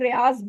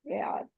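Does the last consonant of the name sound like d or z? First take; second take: z; d. First: The name ends with a z sound. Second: The name ends with a d sound. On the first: This is how local people commonly say it. The speaker calls it wrong. "जिसको हम लोग रियाज बोलते हैं" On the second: This is how Arabs say it. The speaker calls it right. "रियाद कहते हैं जी"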